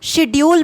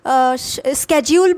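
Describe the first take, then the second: First: The word begins with an 'sh' sound. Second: The word begins with an 'sk' sound. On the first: "हम Indians most of the time हम शेड्यूल बोलते हैं" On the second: "British people लोग स्केड्यूल बोलते हैं"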